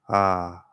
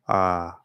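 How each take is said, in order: First: The sound resonates toward the front of the mouth. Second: The sound resonates toward the front of the mouth.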